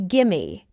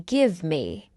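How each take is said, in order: First: "Gimme" as one word, no v; reduced form. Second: "give me" as two separate words; full form. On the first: Teacher shows learners the short form, reduced. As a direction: blend it into "Gimme". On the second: Teacher explains what gimme means, full form. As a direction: sound the v in "give me". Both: Shown as a demonstration. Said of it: "It means give me".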